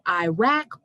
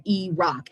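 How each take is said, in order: First: Iraq said "eye-rack"; first pronunciation of Iraq. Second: Iraq said "ee-rock"; alternative pronunciation of Iraq. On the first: Poet quizzing frat boys, Iraq pronounced "eye-rack". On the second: Poet quizzing frat boys, Iraq pronounced "ee-rock". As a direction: open Iraq on "ee", end like "rock". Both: Acted. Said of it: "Do you pronounce it".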